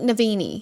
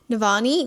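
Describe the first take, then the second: First: The middle vowel sounds like 'ee'. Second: The middle vowel sounds like 'ah'. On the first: The speaker calls it right. "but I think it's like Navini" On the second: The speaker calls it wrong. "I think I was pronouncing that wrong. I think I was saying Navani"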